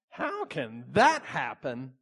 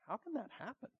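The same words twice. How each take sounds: First: The question sounds doubting and disbelieving. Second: The question sounds sincerely curious and open. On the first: The asker doubts that it can happen. "there's a big difference between" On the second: The asker wants to understand the next steps. "Mary was asking for understanding"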